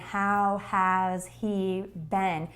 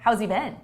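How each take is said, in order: First: The words are slower, with 'has' said in full. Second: The words are fast, with 'has' reduced to 's'. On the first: The speaker calls it wrong. "much different than" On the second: The speaker calls it right. "That's fast"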